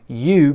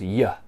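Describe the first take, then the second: First: The word is said with a full 'oo' vowel. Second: The word is said with a short weak vowel. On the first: "So you becomes ya" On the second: "So you becomes ya"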